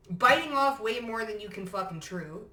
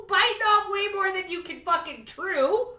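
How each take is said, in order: First: Said in the usual way. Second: Much higher and louder, gleeful; gleeful high emphatic shout; high excited repeat. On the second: Shown as a demonstration. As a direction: shout it again with a cackle of delight.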